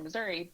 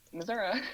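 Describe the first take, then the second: First: Said in the usual way. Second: Missouri said as Missour-uh, ending in uh. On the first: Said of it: "but I actually pronounce it Missouri". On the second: Shown as a demonstration. Revealing her home pronunciation on the podcast, Missour-uh. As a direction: end Missouri on a relaxed uh instead of ee. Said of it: "I actually pronounce it Missouri".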